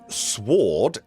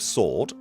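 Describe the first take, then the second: First: The w sound is pronounced. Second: The w sound is silent. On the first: This is the older way the word was said. The speaker calls it right. "we should all be saying sword" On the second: This is the modern way the word is said. The speaker calls it wrong. "instead of sword"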